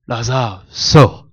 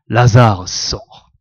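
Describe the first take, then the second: First: It is said with much more intonation. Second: It is said with little intonation. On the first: The speaker calls it right. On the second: The speaker calls it wrong.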